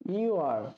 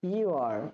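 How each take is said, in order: First: The words are joined into one short syllable. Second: The words are joined into one short syllable.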